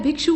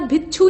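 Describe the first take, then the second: First: भिक्षु with "kshu" at the end; correct form. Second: भिक्षु with "chchhu" at the end; wrong form. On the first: Teacher correcting it, भिक्षु with a clear ksh. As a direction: say भिक्षु as "bhikshu". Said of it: "भिक्षु होता है". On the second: Teacher showing the mistake, भिक्षु as "bhichchhu". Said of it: "नहीं होता है". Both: Shown as a demonstration.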